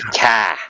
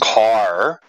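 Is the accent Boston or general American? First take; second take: Boston; general American. First: It is said in a Boston accent. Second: It is said in a general American accent. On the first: "Boston they say" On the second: "Everyone in America says"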